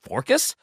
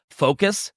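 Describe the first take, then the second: First: "forcus" with an added r, high and questioning; slip on FOCUS. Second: Said in the usual way. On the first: Real, not acted. Host tripping over a word, "forcus" with an r. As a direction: say "forcus" for focus, r in the first syllable.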